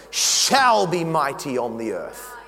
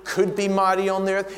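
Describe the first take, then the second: First: Shall said slow and firm; a slow, promising "shall be mighty on the earth"; stress on shall. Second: Said in the usual way. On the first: Shown as a demonstration. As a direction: land hard on the word shall. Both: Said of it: "It's not a might be".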